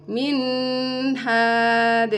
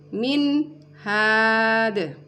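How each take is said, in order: First: The n is held with a nasal hum. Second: The n is cut off before the h. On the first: "tidak boleh didengungkan" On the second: "tidak boleh terputus"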